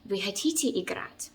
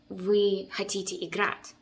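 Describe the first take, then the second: First: The word хотите carries the main stress. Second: The main stress falls away from хотите. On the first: It is a question. The speaker calls it right. "The stress goes to the word хотите" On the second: It sounds more like a command than a question. The speaker calls it wrong. "or if you like would be saying"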